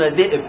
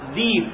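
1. تُنطق همزة في الوسط. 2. تحل ياء طويلة محل الهمزة. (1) "لا يقولون ذئب" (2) "بعض العرب كانوا يحولونها إلى ياء"

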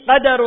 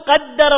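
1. صوت الدال مفرد وقصير. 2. صوت الدال مشدّد ويُنطق لفترة أطول. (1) "في كل النسخ بالتخفيف" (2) "نسمع الوعاظ يقول"

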